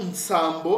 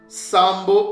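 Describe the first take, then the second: First: The word begins with a nasal n sound. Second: The word begins directly with an s sound.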